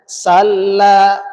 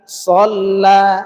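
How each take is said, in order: First: The first consonant is thin and light. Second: The first consonant is thick and heavy. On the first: The speaker calls it wrong. "jangan salla" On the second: The speaker calls it right. "tapi shalla, dibaca tebal"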